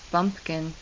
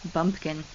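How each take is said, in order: First: The word begins with a voiced b sound. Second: The same.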